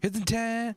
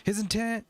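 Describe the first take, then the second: Both takes have the same delivery.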